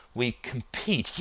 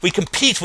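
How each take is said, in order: First: Soft, slow, thinking it out; tentative. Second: Higher, firmer, excited restatement; newly convinced. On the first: Justin groping for the plot's next step, tentative. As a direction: feel your way to the words. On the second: Justin sure he has found the plot, excited. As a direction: seize the idea and run with it. Justin confirms idea after "that's it. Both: A narrator's reading.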